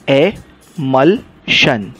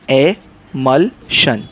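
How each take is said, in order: The two takes are said the same way.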